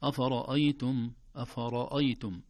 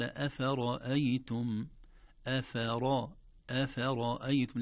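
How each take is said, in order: First: "أفرأيتم" with every vowel thick and dark like the ر; wrongly heavy hamza. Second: "أفرأيتم" slow, every letter thin except a full ر; light letters, heavy ra. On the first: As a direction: say "أفرأيتم" with heavy first syllables. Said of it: "لا نقول". («أفرأيتم» بتفخيم الهمزة والفاء خطأً) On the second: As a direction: keep the vowels of "أفرأيتم" light, only ر heavy. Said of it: "كلها مرققة". («أفرأيتم» بترقيق الحروف وتفخيم الراء وحدها) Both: Shown as a demonstration.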